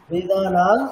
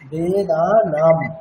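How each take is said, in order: First: The final nasal is not a clear m. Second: The final nasal is a clear m. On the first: The speaker calls it wrong. "বাংলাতে যেমনটা করি ... এরকম করব না" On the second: The speaker calls it right. "অনুস্বার is equal to মহাসন"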